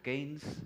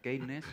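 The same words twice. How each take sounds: First: The name is said with English sounds. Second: The name is read with Spanish sounds.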